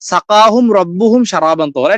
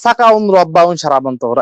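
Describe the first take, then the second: First: The first two words end with a clear '-hum'. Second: The first two words end with '-un', no h. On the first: The speaker calls it right. "এটা কোরআন একটা আয়াত" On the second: The speaker calls it wrong. "এরকম একটা ভুল উচ্চারণ"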